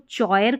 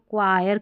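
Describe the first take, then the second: First: The word begins with a ch sound. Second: The word begins with a k sound. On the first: The speaker calls it wrong. "इसको चॉयर करके नहीं पढ़ते" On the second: The speaker calls it right. "इसको क्वायर करके पढ़ते हैं"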